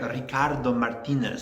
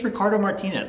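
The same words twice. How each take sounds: First: It is said with an exaggerated Spanish accent. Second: It is said with a plain American accent. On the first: The speaker calls it wrong. "Instead of like" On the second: The speaker calls it right. "like just say it's"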